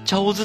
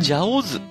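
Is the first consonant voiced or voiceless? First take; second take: voiceless; voiced. First: The first consonant is voiceless, like ch. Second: The first consonant is voiced, like j.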